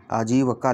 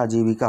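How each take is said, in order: First: आजीवका with a short "a" after v, not "i"; misspelled form. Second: आजीविका with a clear "i" after v; correct form. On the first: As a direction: read out आजीवका as written, "jee-va-kaa". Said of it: "आजीविका की अशुद्ध वर्तनी है". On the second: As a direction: say आजीविका as "aa-jee-vi-kaa". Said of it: "जबकि होती क्या". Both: Shown as a demonstration.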